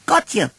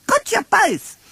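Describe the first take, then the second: First: High, gleeful little joey; Roo shouting. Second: Very high, triumphant little joey; Roo shouting. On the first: Roo jumps out from hiding, high and gleeful. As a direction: crow it like a child springing a trap. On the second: Roo catches Pooh and Piglet, very high and gleeful. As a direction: crow it even higher in triumph. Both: Acted. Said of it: "shouted Roo".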